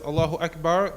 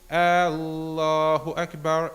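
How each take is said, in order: First: The opening vowel is short. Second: The opening vowel is drawn out long. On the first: It is a statement that God is greatest. The speaker calls it right. "When one says Allahu Akbar" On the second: It becomes a question asking whether God is greatest. The speaker calls it wrong. "they would not say Allahu Akbar, extending the the first uh, letter, the hamza, to make it long"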